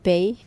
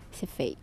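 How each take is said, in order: First: The name begins with a P sound. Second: The name begins with an F sound. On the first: The speaker calls it wrong. "il y en a qui n'arrivent même pas à prononcer le F, donc ils vont m'appeler soit Pay" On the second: The speaker calls it right. "donc en fait c'est Fay"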